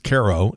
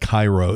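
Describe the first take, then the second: First: It is pronounced unlike the Egyptian city's name. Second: It is pronounced like the Egyptian city's name. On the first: The speaker calls it right. "it's Cairo" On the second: The speaker calls it wrong. "It isn't pronounced like the one in Egypt. It's not Cairo"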